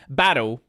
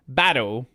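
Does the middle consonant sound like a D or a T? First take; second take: D; D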